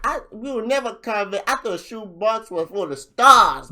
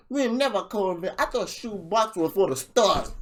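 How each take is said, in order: First: Higher, louder mock rapper delivery; hammed-up rapper line; imitating the rapper's bar. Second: Higher, a bit louder repeat of his punchline; lightly hammed-up rapper line; imitating the rapper's bar. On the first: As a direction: replay his punchline with swagger. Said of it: "he's like". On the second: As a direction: echo his bar once more. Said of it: "after he's like".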